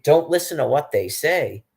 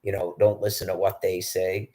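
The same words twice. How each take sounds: First: Louder and higher, throwing the words back; indignant repeat. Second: Said in the usual way. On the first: Real, not acted. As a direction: repeat it in outraged disbelief. Repeating the guard's words in outrage. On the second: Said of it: "the guy that was guarding them goes".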